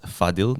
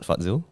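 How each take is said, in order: First: The middle consonant is a plain d sound. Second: The middle consonant is a dz sound. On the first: The speaker calls it right. "your name is pronounced as Fadil" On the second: The speaker calls it wrong. "not Fadzil"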